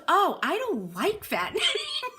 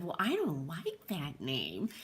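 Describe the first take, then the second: First: Put-on high, slow kid voice breaking into a laugh; blunt little girl. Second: Put-on dead serious kid. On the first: Little Emily telling the host she dislikes her name, high and giggly. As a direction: play the honest five-year-old, laughing through it. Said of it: "She goes". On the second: The girl looking the host in the eye, in lowered earnest seriousness. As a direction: lower and softer, flat and earnest. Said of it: "in all seriousness said".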